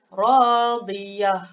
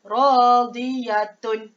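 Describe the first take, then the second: First: The word ends in a soft h sound. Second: The word ends in a full -tun ending. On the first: The reciter stops at the end of the verse. The speaker calls it right. "ini bacaan yang betul ya" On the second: The ending is read as if the recitation continued. The speaker calls it wrong. "Bacaan yang salah"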